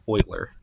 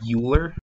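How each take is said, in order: First: The name rhymes with the word boiler. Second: The name is said the way it is spelled. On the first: The speaker calls it right. "but it's pronounced Euler, like this" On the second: The speaker calls it wrong. "It's spelled like Euler"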